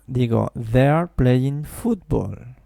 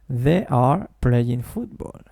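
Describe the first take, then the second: First: "They are" is contracted into one quick syllable. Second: "They are" is two full, strongly stressed syllables. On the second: "de forma no contraída ... con las dos primeras sílabas sonando fuerte"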